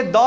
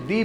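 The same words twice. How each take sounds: First: "द" with an open aw-like vowel; rejected "द" pronunciation. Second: "दी" with a long ee vowel; correct "दी" pronunciation. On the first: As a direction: say "द" as daw, not dee. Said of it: "इसलिए द नहीं पढ़ेंगे". ("द" को दॉ जैसा बोलें) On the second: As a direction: say "दी" as dee, not daw. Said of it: "दी पढ़ेंगे इसको". ("दी" को लंबी ई से बोलें) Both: Shown as a demonstration.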